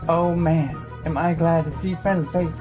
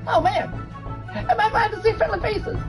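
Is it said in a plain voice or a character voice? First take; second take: plain voice; character voice. First: It is said without a female character voice. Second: It is said in a put-on female character voice.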